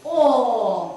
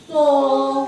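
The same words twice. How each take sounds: First: О said alone, held and a bit louder; isolated vowel. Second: Со sung out long and loud, the о held; stretched sound. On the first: Teacher isolating the vowel for the class, loud held О. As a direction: sound out just О clearly. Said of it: "як я його вимовляю". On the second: Teacher singing out the second sound for children, long held о. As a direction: hold the о in Со like a note. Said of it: "Слухаємо другий звук". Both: Shown as a demonstration.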